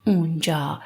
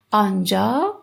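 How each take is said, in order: First: "اونجا" lower, with an oo start; spoken form. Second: Said in the usual way. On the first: Shown as a demonstration. Teacher contrasting written and spoken Persian, "اونجا" with oo. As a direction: colloquial "اونجا", oo replacing the first long aa. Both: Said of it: "we pronounce as اونجا".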